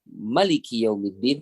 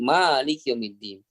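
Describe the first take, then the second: First: The vowel after the first m is short. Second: The vowel after the first m is lengthened. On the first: "tanpa mad" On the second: "dengan memanjangkan huruf mim"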